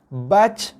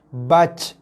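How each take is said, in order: First: The final j ends with a breathy puff. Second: The final j ends with a breathy puff.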